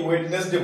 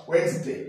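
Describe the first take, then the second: First: ওয়েডনেসডে pronounced as wed-nes-day; wrong, D sounded. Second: ওয়েডনেসডে pronounced as wenz-day; correct silent D. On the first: Teacher asks if we say it wrongly, ওয়েডনেসডে with first D sounded. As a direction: keep the first D audible in ওয়েডনেসডে. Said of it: "wrong.". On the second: Teacher corrects the mistake for students, ওয়েডনেসডে said wenz-day. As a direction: leave out the first D in ওয়েডনেসডে. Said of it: "ডি এর উচ্চারণটা নেবো না". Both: Shown as a demonstration.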